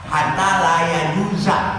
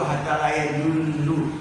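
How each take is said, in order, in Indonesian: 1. Kata terakhir berakhir dengan vokal 'a'. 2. Kata terakhir berakhir dengan vokal 'u'. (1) "domanya diganti sama fathah" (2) "Itu tulisan di situ"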